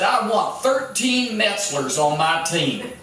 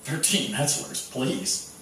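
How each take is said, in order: First: Slow emphatic thirteen Metzlers; coach's demand. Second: Soft sarcastic Thirteen Metzlers please; mock disbelief, quietly; scoffing thought. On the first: Retold or imitated. Coach challenging his lazy players, slow emphatic. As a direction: lean on thirteen, slow and firm. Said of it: "he said". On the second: Teammates sneering at the coach's demand, soft sarcastic. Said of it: "we're all thinking".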